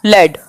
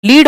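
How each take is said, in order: First: लेड with an e vowel; short-e pronunciation. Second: लीड with a long ee vowel; long-ee pronunciation. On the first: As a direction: say लेड to rhyme with "bed". (लेड में ए की आवाज़) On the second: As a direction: say लीड to rhyme with "need". (लीड में लंबी ई की आवाज़) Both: Shown as a demonstration. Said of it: "बोले अलग जाते हैं".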